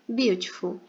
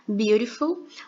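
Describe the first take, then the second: First: The middle t is pronounced as a clear t. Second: The middle t sounds like a quick flapped r. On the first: This is a less common regional pronunciation. "dependendo da região em que a pessoa é nativa" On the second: This is the more common everyday pronunciation. "geralmente ele vai se transformar na letra R"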